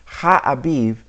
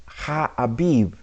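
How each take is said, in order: First: Ha'abiv spelled out slowly, each syllable clear; slow careful Ha'abiv. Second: Said in the usual way. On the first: Shown as a demonstration. Teacher slowing down to show students the Hebrew word Ha'abiv. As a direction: say Ha'abiv slowly so they catch every sound. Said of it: "It says Ha'abiv". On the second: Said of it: "the word itself says".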